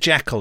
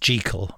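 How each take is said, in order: First: The name is said in its familiar pronunciation. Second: The name is said in its original pronunciation. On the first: "Everyone's used to Jekyll" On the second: "Jekyll is properly meant to be pronounced Jekyll"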